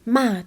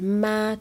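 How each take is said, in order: First: The pitch falls sharply from high to low. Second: The pitch stays high and level. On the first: It means to insult or scold. "ما تون چهار توهین کردنه" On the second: It means mother. "ما تون یک مادر"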